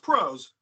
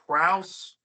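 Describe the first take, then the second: First: The vowel sounds like the one in go. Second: The vowel sounds like the one in cow. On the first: The speaker calls it right. "but it's pronounced prose" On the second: The speaker calls it wrong. "excuse my pronunciation of this word"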